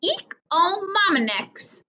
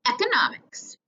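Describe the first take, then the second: First: "Economics" drawn out slowly and stumbling, syllables tangled; mangled word. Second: "Economics" whispered with correct syllables; whispered correction. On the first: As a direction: stretch "Economics" slowly, tripping over the middle sounds. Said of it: "when he said". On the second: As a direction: breathe "Economics" as a quick whispered fix. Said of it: "Mister Dalton corrected himself". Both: A narrator's reading.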